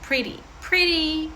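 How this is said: The t sounds like a quick soft d. "Якщо ж американський, так"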